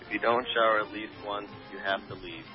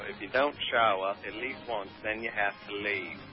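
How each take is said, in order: First: It is spoken in the speaker's usual accent. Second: It is spoken in a put-on British accent.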